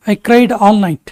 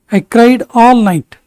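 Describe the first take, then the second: First: Said in the usual way. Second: Very slow, words drawn apart; slow, clear repetition. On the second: Shown as a demonstration. Teacher repeating for students, slow and deliberate. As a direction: spell it out slowly for the class. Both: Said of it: "teacher models sentence twice".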